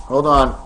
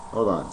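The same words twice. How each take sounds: First: Said in the usual way. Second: Much softer and lower, under the breath; quiet mutter. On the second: Real, not acted. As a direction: mutter it to himself while fumbling. Fumbling with toys on camera.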